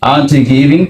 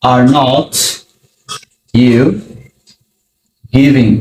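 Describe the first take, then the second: First: Said in the usual way. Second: Every word set apart by long pauses; slow word by word. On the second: Shown as a demonstration. Teacher building the question for students, word by word. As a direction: spell it out slowly. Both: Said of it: "তুমির সাথে হবে are".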